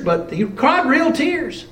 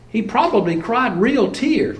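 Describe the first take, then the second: First: Cried punched and drawn out, slowed down; stress on CRIED. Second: Preacher leans on probably as he retells the scene, stress on probably. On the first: Preacher insists the tears were real, stress on cried. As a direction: lean on cried, slowly, to insist. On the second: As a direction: probably hit hardest, the rest falling away. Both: Shown as a demonstration. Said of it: "We might call them crocodile tears".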